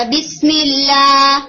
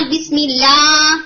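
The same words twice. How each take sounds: First: بسم اللہ chanted slowly, sound going out of the mouth; sound flowing outward. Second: بسم اللہ slow, sound pressed back toward throat; pressed inward. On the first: Teacher showing open outward sound. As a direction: let بسم اللہ flow outward, slow. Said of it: "not بسم اللہ، کہ آپ اسے اندر کی طرف press کریں". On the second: Teacher showing the wrong pressed sound. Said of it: "کہ آپ اسے اندر کی طرف پریس کریں". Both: Shown as a demonstration.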